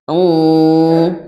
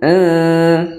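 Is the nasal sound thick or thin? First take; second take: thick; thin. First: The nasal hum sounds thick. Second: The nasal hum sounds thin. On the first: The speaker calls it wrong. "bukan in, ya, bukan tebal" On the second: The speaker calls it right. "jadi tipis"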